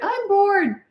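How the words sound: It is said in a milder tone.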